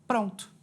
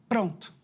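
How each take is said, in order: Both takes have the same delivery.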